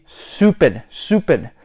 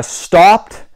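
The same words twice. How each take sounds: First: "stopped" as stoo-pid; British-style STOPPED. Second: Said in the usual way. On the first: Shown as a demonstration. Repeating for learners, "stopped" as stoo-pid. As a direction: say "stopped" slowly with an OO vowel. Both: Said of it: "stopped would be stupid".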